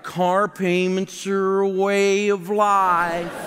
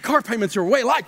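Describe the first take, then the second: First: It is said in a whining, complaining tone. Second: It is said in a cheerful, enthusiastic tone. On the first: The speaker feels like a helpless victim. "they're always kind of whining" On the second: The speaker happily accepts payments as normal. "no one says it with enthusiasm like"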